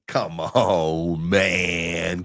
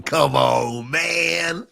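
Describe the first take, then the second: First: Low, drawn-out "come on, man"; hammed-up plea, sustained and low; mock pleading. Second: Hammed-up wail rising on "man"; mock pleading. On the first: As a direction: stretch it out down low. Hammed-up plea to spot buyers. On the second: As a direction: stretch it out and push it upward. Hammed-up plea, second take higher.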